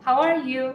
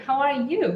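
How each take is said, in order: First: Said in the usual way. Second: "you" pitched up, rising at the end; stress on YOU. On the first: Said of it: "in English, this would go something like". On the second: Shown as a demonstration. Teacher turning the question back, stress on "you". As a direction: return the question by lifting "you". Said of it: "change our tone to reflect the same question back".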